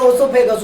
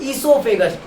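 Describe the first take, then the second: First: The word begins with an 'oh' vowel. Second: The word begins with an 'ee' vowel. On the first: The speaker calls it wrong. "लोग बोलते हैं ओसोफेगस" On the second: The speaker calls it right. "ईसोफेगस बोलते हैं उसको"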